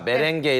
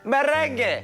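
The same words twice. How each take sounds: First: The word is said plainly, without flair. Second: The word is said with lively, showy flair. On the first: The speaker calls it wrong. "발음부터가 메렝게 이러면은 맛깔이 안 납니다" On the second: The speaker calls it right. "이런 데는 이제 메렝게"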